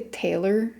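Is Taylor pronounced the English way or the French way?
English. It is pronounced with English sounds. "I would say Taylor in English"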